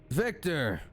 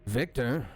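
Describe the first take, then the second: First: "Victor!" exclaimed higher in sudden recognition; joyful recognition. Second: A tentative, questioning "Victor?"; unsure question. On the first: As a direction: call out "Victor!" as it dawns on you. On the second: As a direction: ask "Victor?" as if not sure it's him. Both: Acted. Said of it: "the lizard folk says".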